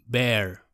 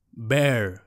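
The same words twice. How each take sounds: First: Careful teacher reading of Bear again for learners to copy; model pronunciation. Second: Careful teacher reading of Bear; model pronunciation. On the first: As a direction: Bear repeated slowly and clearly, one syllable, falling. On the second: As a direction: Bear said slowly and clearly, one syllable, falling. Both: Shown as a demonstration. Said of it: "la pronunciación correcta".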